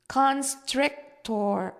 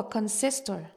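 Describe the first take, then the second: First: CON-STRIC-TOR, slow and higher, split into syllables; stressing each syllable. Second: Constrictor said as "consistor", at normal pace; mispronounced. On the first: Eric corrects his sister, constrictor stressed on each syllable. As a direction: spell out constrictor syllable by syllable, very slowly. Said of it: "stressing each syllable". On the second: Child guesses at the snake's name, constrictor mispronounced as "consistor". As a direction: garble constrictor into "consistor", dropping the t-r. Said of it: "Eric corrects me". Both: A narrator's reading.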